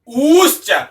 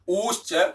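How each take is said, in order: First: The vowel is held for three beats. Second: The vowel is held for two beats. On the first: This is the prolonged vowel measure. "ऊश्च इसमें तीन मात्राएं" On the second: This is the long vowel measure. "इसमें दो मात्राएं हैं"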